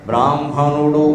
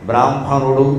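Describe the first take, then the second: Both takes have the same delivery.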